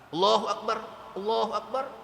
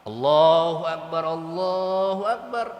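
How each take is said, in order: First: The phrase is said quickly without pauses. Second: The phrase is said slowly with pauses. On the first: The speaker calls it wrong. "enggak begitu" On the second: The speaker calls it right. "Tapi pelan-pelan"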